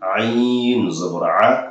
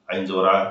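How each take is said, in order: First: It is recited slowly and calmly. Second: It is recited quickly and hurriedly. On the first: The speaker calls it right. "রিল্যাক্সে আস্তে আস্তে ... এভাবে পড়বেন" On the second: The speaker calls it wrong. "তাড়াহুড়ো করবেন না ... এভাবে পড়বেন না"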